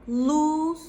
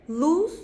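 First: "Lose" with a drawn-out vowel; longer vowel. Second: "Lose" said short and high; shorter vowel. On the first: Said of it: "daha uzun". ("Lose" uzun sesli) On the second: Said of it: "biraz daha kısa". ("Lose" kısa sesli) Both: Shown as a demonstration.

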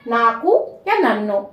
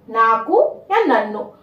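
First: Said in the usual way. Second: "नाकू या Nanno" said slowly for the learner; slow it down so students can copy "नाकू या Nanno"; slow repeat. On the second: Shown as a demonstration. ("नाकू या नन्नो" धीरे-धीरे बोलें) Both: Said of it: "मैं धीरे धीरे बोलूंगी".

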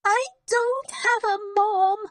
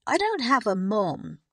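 First: Very high, loud wailing cry; crying louder. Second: Less loud. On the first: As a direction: wail it like a tantrum. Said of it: "But Lottie just cried louder". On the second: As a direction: still raised but calmer wail. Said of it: "but not as loudly". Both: A narrator's reading.

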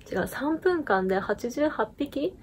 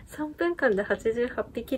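First: Slow, drawn out, rising on 三分間; dramatic reveal. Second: Amused retelling of 三分間で八十八匹, falling; chuckling at 三分間で八十八匹; laughing repeat. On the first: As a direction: build suspense on 三分間で八十八匹, slowly. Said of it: "ね、なんとね、". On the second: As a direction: laugh through 三分間で八十八匹 in disbelief. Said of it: "いや、めっちゃ強いと思って". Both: Real, not acted.

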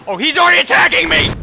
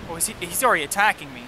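First: High, loud, fast panicked yell; terrified horror victim. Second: Said in the usual way. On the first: Real, not acted. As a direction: shriek as he attacks you. Panic as boss attacks.

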